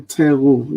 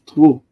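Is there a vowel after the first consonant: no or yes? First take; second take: yes; no. First: A full vowel follows the first consonant. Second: The first vowel is dropped, consonants run together. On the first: The speaker calls it wrong. "don't say teru" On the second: The speaker calls it right. "it's tru"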